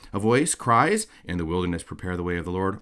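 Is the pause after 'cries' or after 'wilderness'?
after cries. The break comes after 'cries'.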